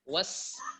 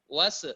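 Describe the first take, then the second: First: The s ends cleanly with no bouncing release. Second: The s ends with a bouncing, echoing release. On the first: The speaker calls it right. "Yang benar adalah sin, sin sukun. Dengan menyempurnakan sukunnya" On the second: The speaker calls it wrong. "Jadi qalqalah. Jangan diqalqalakan sin"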